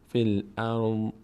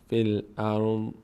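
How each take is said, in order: The two takes are said the same way.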